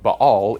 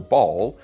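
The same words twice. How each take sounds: First: Two short A sounds with a throaty break. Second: The vowels merge with no middle consonant. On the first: The speaker calls it right. "closer to the original Hebrew" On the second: The speaker calls it wrong. "smush them together and drop the middle consonant"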